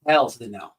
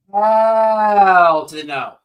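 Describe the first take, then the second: First: Said in the usual way. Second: "Hell to the no" stretched very slow and louder; loud drawn-out refusal. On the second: Real, not acted. Refusing to let the psychic attack the subscribers, loud and drawn out. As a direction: drag out every word of "Hell to the no" as a big slow loud final no.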